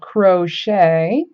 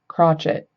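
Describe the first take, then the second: First: The word ends with a soft 'shay' sound. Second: The word ends with a hard 'chet' sound. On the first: The speaker calls it right. "that C H E T at the end is pronounced shay" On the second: The speaker calls it wrong. "not like crotchet, which I have heard some friends say"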